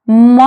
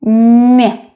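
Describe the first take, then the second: First: М as a hard 'm', unsoftened. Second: М as a palatalized 'my'; softened м. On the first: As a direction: say м plainly without any 'y' colouring. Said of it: "That's the difference". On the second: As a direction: soften м toward a 'y' sound. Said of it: "soft sign makes the previous letter sound softer". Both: Shown as a demonstration.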